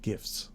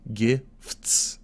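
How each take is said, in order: First: The word is said quickly. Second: The word is drawn out slowly. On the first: "If I say it fast" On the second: "it sounds like I'm trying to make it a two-syllable word"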